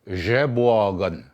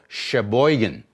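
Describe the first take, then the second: First: The name is said the original Ojibwe way. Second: The name is said the anglicized English way. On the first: The speaker calls it right. "it's actually supposed to be pronounced Jeboagan" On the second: The speaker calls it wrong. "That's the way they pronounced it"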